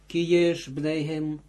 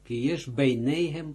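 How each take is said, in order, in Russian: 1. Второе слово имеет два слога: bnei-hem. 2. Второе слово имеет три слога: bei-nei-hem.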